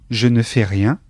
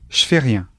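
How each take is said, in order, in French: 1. Le mot 'ne' se prononce devant le verbe. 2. Le mot 'ne' ne se prononce pas devant le verbe.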